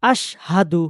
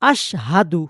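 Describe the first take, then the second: First: The h sound is clearly pronounced. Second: The h sound is clearly pronounced.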